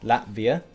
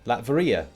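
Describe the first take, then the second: First: The syllables are run together, dropping one. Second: Every syllable is pronounced clearly and fully. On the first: "smushing things together" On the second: "overpronounce things"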